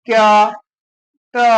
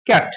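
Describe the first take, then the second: First: "ক্যা, টা" as two pieces with a long gap; sounds pulled apart. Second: Said in the usual way. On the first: Shown as a demonstration. Teacher testing if cat divides, "ক্যা, টা" pulled apart. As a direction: split the word into "ক্যা, টা", pausing between. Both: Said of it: "আলাদা করে উচ্চারণ করতে পারছি না".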